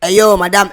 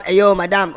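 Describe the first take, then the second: First: Louder call across the shop. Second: "hey yo, madame" sung out with a long held "madame". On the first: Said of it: "hey yo, madame (sung)". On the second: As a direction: sing the farewell "hey yo, madame". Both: Acted.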